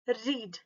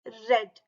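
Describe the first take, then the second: First: The word has a long 'ee' vowel. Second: The word has a short 'e' vowel. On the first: It is the present tense. "R E A D को हम रीड करते हैं रीड" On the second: It is the past tense. "Past tense में बोलना है तो हम इसे रेड बोलेंगे"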